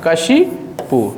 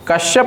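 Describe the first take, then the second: First: The word ends with an 'ipu' sound. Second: The word ends with a 'yap' sound. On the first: The speaker calls it right. "कशिपु होता है" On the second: The speaker calls it wrong. "कश्यप नहीं"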